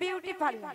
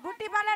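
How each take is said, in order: First: The first word starts with a 'byoo' glide sound. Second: The first word starts with a plain 'boo' sound. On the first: The speaker calls it right. "ওটা হচ্ছে বিউটি parlour" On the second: The speaker calls it wrong. "বুটি পাল্লা নয় মাসি"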